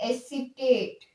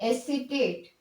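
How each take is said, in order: The two takes are said the same way.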